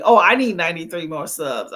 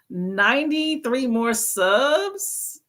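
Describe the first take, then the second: First: Lower, louder, falling realization; realizing aloud. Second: Slow, rising disbelief at the number; surprised question. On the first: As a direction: land it as a sigh of understanding. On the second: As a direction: draw it out, asking back in surprise. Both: Real, not acted.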